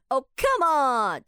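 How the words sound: It is said in a strained, cracking, exasperated voice.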